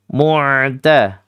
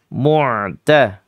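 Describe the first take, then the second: The two takes are said the same way.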